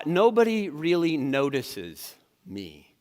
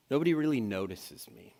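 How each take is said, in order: First: Slow, self-pitying; drawn out and glum; mopey, slow. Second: "Nobody" sinking, much softer; quietly defeated. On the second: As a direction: let it fade to a sad hush. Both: Shown as a demonstration. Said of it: "distortions sound more like this".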